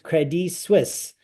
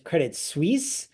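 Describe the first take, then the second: First: It is pronounced the way it's said in Zurich. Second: It is pronounced the American way, stressing Suisse.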